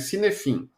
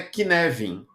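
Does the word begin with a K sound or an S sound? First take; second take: S sound; K sound. First: It begins with an S sound and has F. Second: It begins with a K sound and has V. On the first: "se escreve Cinefin" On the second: "a pronúncia é Kinevin"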